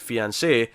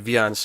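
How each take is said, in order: First: The word begins with an F sound. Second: The word begins with a V sound. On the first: The speaker calls it right. "I'll just try and say it with more of an F, and sure enough, there it is" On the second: The speaker calls it wrong. "I just gravitate to Viance. Like I don't know why. I just do it. I know it's wrong"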